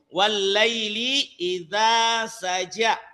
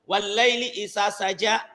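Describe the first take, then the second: First: The marked vowel is held for two beats. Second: The marked vowel is said short. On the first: The speaker calls it right. "padahal di situ wallaili idza saja" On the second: The speaker calls it wrong. "mungkin anakku bisa membaca wallaili idza saja"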